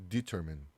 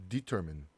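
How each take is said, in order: No difference in how they are said.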